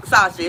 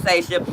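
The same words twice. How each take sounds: First: Sasha said SAH-sha, open ah; correcting herself from SAH-sha; wrong Sasha. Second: Sasha said SAY-sha, long ay; settling on Sasha with ay as in say; right Sasha. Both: Shown as a demonstration. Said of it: "it's Sasha".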